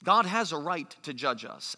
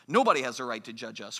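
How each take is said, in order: First: Said in the usual way. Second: Quick, lower mock protest; dismissive retort. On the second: Preacher voices Americans rejecting judgment, quick dismissive retort. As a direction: rattle it off as a defiant objection.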